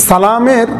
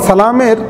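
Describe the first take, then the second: The two takes are said the same way.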